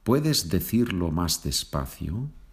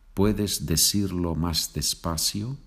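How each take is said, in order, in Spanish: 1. Hablado con acento de España, con sonido th. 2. Hablado con acento latinoamericano, con sonido s.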